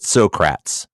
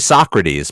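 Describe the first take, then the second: First: The name is said in the local pronunciation. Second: The name is said in its standard pronunciation. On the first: This is how people there say the street name. "they pronounce it Socrates" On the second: This is how the name is usually said elsewhere. "It's actually Socrates"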